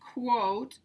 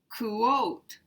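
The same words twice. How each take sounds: First: The word is said as one syllable. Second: The word is said as two syllables. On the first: The speaker calls it right. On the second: The speaker calls it wrong.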